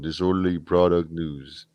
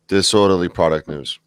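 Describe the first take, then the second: First: It is said in an imitation of another voice. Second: It is said in the speaker's ordinary voice.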